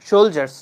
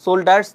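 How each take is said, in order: First: The middle consonant is a 'j' sound. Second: The middle consonant is a 'd' sound. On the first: The speaker calls it right. "এটার উচ্চারণ হবে সোলজার্স" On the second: The speaker calls it wrong. "সোল্ডার্স না"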